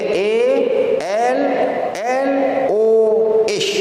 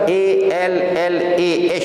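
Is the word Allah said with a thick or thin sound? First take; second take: thick; thin. First: The lam is heavy with rounded lips. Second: The lam is light with an open a vowel. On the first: The speaker calls it right. "Dia kena baca tafkhim, dia kena baca tebal" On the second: The speaker calls it wrong. "yang tu tarqiq"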